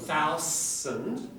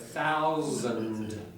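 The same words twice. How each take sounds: First: The middle consonant is a voiceless hissing s. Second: The middle consonant is a strong voiced z. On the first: The speaker calls it wrong. "it's unvoiced" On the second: The speaker calls it right. "you've got to get a z"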